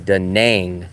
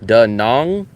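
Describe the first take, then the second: First: The second syllable rhymes with 'bang'. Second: The second syllable rhymes with 'Kong'. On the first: This is how older Americans say it. "all the older Americans say Da Nang, like Nang" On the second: This is how local people say it. "rhymes with Hong Kong"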